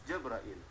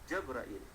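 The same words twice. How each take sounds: No difference in how they are said.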